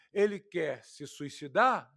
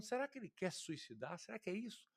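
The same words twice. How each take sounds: First: Mocking. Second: Soft, unsure musing question; wondering. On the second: Retold or imitated. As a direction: ask it quietly to yourself, puzzled. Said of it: "simplesmente pensando". (pensativo e baixinho, em dúvida)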